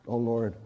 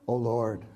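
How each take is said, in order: Both takes have the same delivery.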